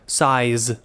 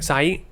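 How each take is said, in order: First: It ends with a clear z sound. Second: It ends without the z sound.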